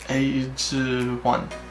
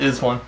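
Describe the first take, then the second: First: The name is read with Korean sounds. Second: The name is read like English 'is one'. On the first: "reading verbatim from my really crappy Korean" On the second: "for the sake of easy pronunciation"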